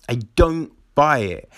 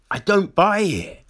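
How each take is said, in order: First: Said in the usual way. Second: Emphatic. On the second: Real, not acted.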